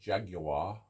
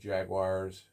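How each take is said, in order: First: It is said with a British accent. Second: It is said with an American accent.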